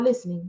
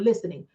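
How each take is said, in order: First: The T sound in the middle is silent. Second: The T sound in the middle is pronounced. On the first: Ordinary listening. "you're not listening" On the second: Listening skeptically because something sounds like nonsense. "You got to pronounce the S T when there's some bull involved"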